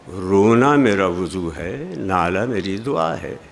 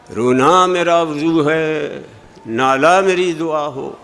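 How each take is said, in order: First: Lower, plain and unforced, मेरा lifted; natural phrasing with a rise on मेरा; proper reading. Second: Slow, sing-song school recitation of रोना and नाला; mock the way students are taught; hammed-up classroom reading; schoolchildren's sing-song. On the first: Shown as a demonstration. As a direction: say it simply, with no singsong. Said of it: "अब नाला क्या चीज़ है? रोना क्या है?". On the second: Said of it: "स्कूलों में पढ़ाया जाता है कि शेर इस तरह पढ़ो".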